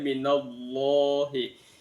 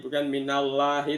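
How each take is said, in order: First: The word Allah is pronounced with thick sounds. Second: The word Allah is pronounced with thin sounds. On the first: The speaker calls it right. "dibaca tafkhim, tebal" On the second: The speaker calls it wrong.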